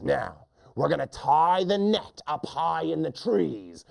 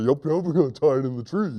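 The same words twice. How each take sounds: First: Higher-pitched bossy hunter; mean hunter. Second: Fast goofy echo; silly hunter. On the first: Hunter ordering the net hung, higher mean voice. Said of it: "the lion hunter says". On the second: Silly hunter copying the net plan, fast goofy voice. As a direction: parrot it quickly and dimly. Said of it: "He repeats everything his friend says". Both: Acted.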